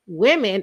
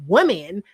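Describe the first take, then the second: First: "women" opened with a short i, WIM-in; slow demonstration of "women" as WIM-in; corrected pronunciation. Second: "women" said like "woman", WUM-in; slow demonstration of "women" as WUM-in; mistaken pronunciation. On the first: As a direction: stretch out "women" as WIM-in, slowly. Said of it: "it was like we". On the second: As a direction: say "women" with a rounded first vowel, as in "wood". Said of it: "and not women". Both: Shown as a demonstration.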